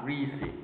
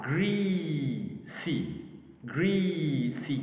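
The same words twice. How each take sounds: First: Said in the usual way. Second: "greasy" stretched out as gree, then sy; syllable by syllable. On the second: Shown as a demonstration. Teacher dividing a word for learners, slowly syllable by syllable. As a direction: draw out the first syllable of "greasy", then separate the second. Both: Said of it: "First syllable".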